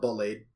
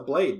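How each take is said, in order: First: The B at the start is strongly emphasized. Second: The B at the start is said plainly. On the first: The speaker calls it wrong. "they emphasize the B in it" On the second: The speaker calls it right. "It's a blade, dude"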